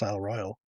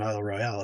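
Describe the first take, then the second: First: Royale is pronounced like the word royal. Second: Royale is pronounced the way it is spelled. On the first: The speaker calls it right. "it's Isle Royal" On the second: The speaker calls it wrong. "it's spelled Isle Royale, but it's not Isle Royale"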